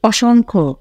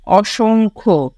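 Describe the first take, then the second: First: অসংখ্য said as "ওশোংখো", read at normal pace; name the word অসংখ্য once, plainly; standard pronunciation. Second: অসংখ্য drawn out slowly as "ওশোংখো"; slow model pronunciation. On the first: Teacher reads অসংখ্য plainly to the class. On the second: Teacher slowly models অসংখ্য for students to repeat. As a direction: spell out অসংখ্য syllable by syllable, slowly. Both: Shown as a demonstration. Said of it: "উচ্চারণ অনুশীলন করো".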